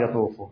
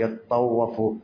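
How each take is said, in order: First: The middle consonant is short and single. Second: The middle consonant is doubled and held longer. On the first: "شو ما قال يطوفوا؟" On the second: "ليش أكو تشديد شدة يعني يطوفوا؟"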